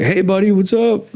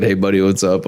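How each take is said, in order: First: Lightly voiced brother, higher and chummy; friendly greeting. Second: Said in the usual way. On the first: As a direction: imitate the brother's cheery hello, pitched up.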